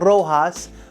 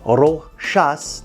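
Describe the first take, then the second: First: The name is given a non-French pronunciation. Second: The name is given its French pronunciation. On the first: The speaker calls it wrong. "I always said Rojas, my mistake" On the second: The speaker calls it right. "it's Rochas because it is a French name"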